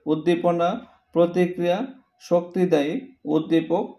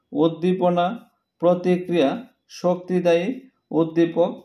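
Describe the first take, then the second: No difference in how they are said.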